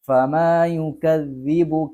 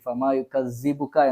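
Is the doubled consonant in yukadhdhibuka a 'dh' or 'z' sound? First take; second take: dh; z. First: The doubled consonant is a tongue-between-teeth 'dh' sound. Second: The doubled consonant is a buzzing 'z' sound. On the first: The speaker calls it right. "നാവിന്റെ തല മേലെ മുൻപല്ലിന്റെ തല" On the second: The speaker calls it wrong. "പല ആളുകൾ സായി ഫമാ യുകദ്ദിബുക എന്ന് പറയാറുണ്ട്"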